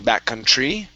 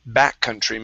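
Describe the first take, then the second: First: The stress falls on the end of the word. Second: The stress falls on the first syllable. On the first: The speaker calls it wrong. "stressing the end of this word" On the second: The speaker calls it right. "we stress the very beginning"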